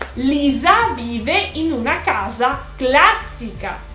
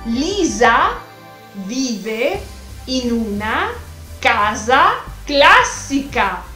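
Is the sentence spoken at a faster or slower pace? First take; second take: faster; slower. First: The sentence is spoken at a faster pace. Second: The sentence is spoken at a slower pace.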